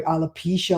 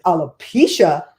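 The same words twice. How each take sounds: First: Said in the usual way. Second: Loud, drawn-out disbelief; incredulous echo. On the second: Retold or imitated. Caller echoing the company's side effect, incredulous. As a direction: repeat the word slowly and loudly, appalled. Her shocked reply, retold.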